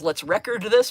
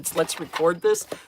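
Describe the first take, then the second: First: The stress in record is on the first syllable. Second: The stress in record is on the second syllable. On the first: Record is a noun naming a music disc. "it actually says, "Let's record this," because it's a record in the background" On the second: Record is a verb meaning to capture something. "but the way they're trying to use it"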